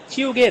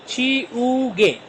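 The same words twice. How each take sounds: First: Said in the usual way. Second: "ची, उ, गे" long, slow and higher; syllable by syllable. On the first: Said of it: "ची उ गे rubber razor". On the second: Shown as a demonstration. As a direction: draw out "ची उ गे" as three syllables. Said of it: "तीन syllable से मिलकर". ("ची उ गे" को धीरे, तीन हिस्सों में)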